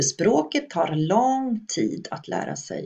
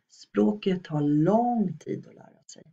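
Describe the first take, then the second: First: Every sound in the sentence is fully pronounced. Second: Unimportant sounds are reduced or dropped. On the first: The speaker calls it wrong. "Vi säger ju inte" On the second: The speaker calls it right. "Vi reducerar, tar bort en hel del oviktiga ljud här"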